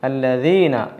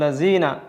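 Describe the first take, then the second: First: The middle consonant sounds like a soft dh. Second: The middle consonant sounds like a buzzing z. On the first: The speaker calls it right. "അല്ലദീന എന്നാണ് ഉച്ചരിക്കേണ്ടത്" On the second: The speaker calls it wrong. "ചിലർ ... ഇങ്ങനെയും പറയുന്നതായിട്ട് കേൾക്കാൻ കഴിയും"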